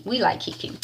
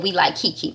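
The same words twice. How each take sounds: First: Soft, unvoiced whisper; whispered repeat. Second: Said in the usual way. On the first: Real, not acted. Host repeating her approval to listeners, whispered.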